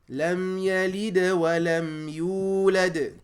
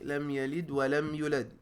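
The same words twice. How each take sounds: First: The vowel in yulad is held two beats. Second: The vowel in yulad is cut short. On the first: The speaker calls it right. "Two beats, no more" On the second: The speaker calls it wrong. "Some people say ... Not pronouncing that wow, not stretching uh, the sound of the ya dhamma"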